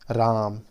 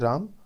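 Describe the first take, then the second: First: The vowel is stretched out extra long. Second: The vowel is held for a normal length. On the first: "उसमें थोड़ा अधिक समय लेने से राम" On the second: "धीरे बोलने से राम"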